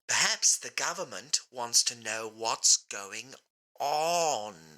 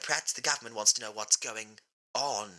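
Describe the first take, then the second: First: It is said slowly. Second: It is said at a normal pace.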